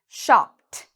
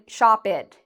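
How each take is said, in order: First: The ending is a short t sound. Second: The ending is an extra separate syllable. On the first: The speaker calls it right. "I'm saying very quickly" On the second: The speaker calls it wrong. "Notice I am not saying shop it"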